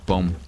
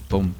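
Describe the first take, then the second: Both takes have the same delivery.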